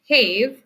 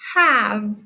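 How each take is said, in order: First: The vowel is long, saying its name. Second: The vowel is short, not saying its name. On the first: The speaker calls it wrong. "We don't pronounce it as have" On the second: The speaker calls it right. "we pronounce it as have"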